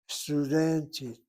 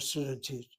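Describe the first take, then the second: First: The stress is on the second-to-last syllable. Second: The stress is on the final syllable. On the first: The speaker calls it right. "The accent is over the second to last syllable" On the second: The speaker calls it wrong.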